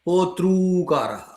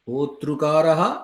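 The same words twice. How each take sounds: First: The two r-vowels merge into one long vowel. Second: The two r-vowels merge into one short vowel. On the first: "सवर्णदीर्घपक्षे होतृकारः" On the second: "ऋतिसवर्णे रुवा इति ऋकारादेशपक्षे होतृकारः"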